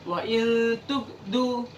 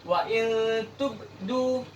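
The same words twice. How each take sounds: The two takes are said the same way.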